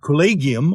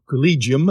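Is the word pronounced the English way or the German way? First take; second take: German; English. First: It is pronounced with a German pronunciation. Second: It is pronounced with an English pronunciation. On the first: "the German word collegium" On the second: "as as we would say"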